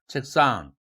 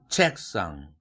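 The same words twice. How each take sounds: First: The stress is on the second syllable. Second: The stress is on the first syllable. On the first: "강세를 달리해서 발음하면 어색할 뿐이다" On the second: "한국어는 모든 단어에 첫 음절에 액센트가 있다"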